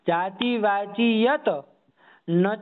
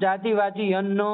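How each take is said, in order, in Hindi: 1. हर शब्द अलग-अलग, थोड़े ठहराव के साथ बोला जाता है। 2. शब्द एक इकाई की तरह जुड़कर बोले जाते हैं। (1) "ऐसे बोलो ना।" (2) "ऐसे नहीं करना"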